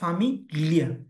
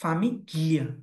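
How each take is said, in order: No difference in how they are said.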